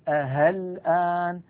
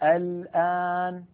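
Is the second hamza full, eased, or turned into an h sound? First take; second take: h sound; full. First: The hamza is replaced by an h sound. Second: The hamza is pronounced fully and sharply. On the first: "أن يبدلها هاء" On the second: "أن يحقق همزة الوصل فيقول الآن، هذا لا يصح"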